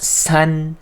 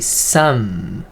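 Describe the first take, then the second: First: The final nasal is made with the tongue. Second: The final nasal is made with closed lips. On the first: The speaker calls it wrong. "not sun" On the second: The speaker calls it right. "this N sound is not using a tongue. It's actually some"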